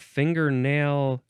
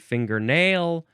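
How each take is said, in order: First: The stress is on the first syllable. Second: The stress is on the last syllable.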